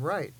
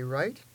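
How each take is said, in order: First: "right" without the question lift, dropping; more certain tone. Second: "right" rising high, unsure; high questioning tone. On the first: Teacher contrasting the meanings of tones, certain "right". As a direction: land "right" as a settled statement. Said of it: "it's different from right". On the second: Teacher contrasting the meanings of tones, rising "right". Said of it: "when we use our high tone". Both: Shown as a demonstration.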